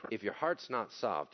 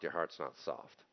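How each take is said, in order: First: Heart's punched, falling; heart's stressed with a falling tune. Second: Heart's said low and quiet; quieter, lower echo with heart's falling; soft repeat. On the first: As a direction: lean on heart's in If your heart's not soft. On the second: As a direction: drop the voice on your heart's not soft. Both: Shown as a demonstration.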